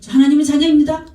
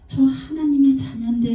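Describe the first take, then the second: First: It is shouted loudly and boldly. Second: It is said quietly and without force.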